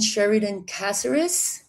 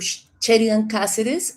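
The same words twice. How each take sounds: First: The name is said with an English accent. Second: The name is said with a Spanish accent.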